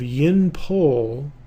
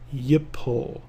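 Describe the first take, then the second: First: An n sound is heard before the p. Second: No n sound; the p follows directly. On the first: The speaker calls it wrong. "instead of yin pol for the kal imperfect" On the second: The speaker calls it right. "you have yipol. It's just like the noon disappears"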